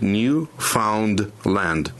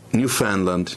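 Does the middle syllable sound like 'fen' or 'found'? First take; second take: found; fen. First: The middle syllable is said as a full 'found'. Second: The middle syllable is said as a short 'fen'. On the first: The speaker calls it wrong. "если по кускам разбить это слово, то будет Newfoundland. Но так нельзя читать" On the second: The speaker calls it right. "в центре фен"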